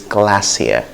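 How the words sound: It is said with a British accent. "in British English it's glacier"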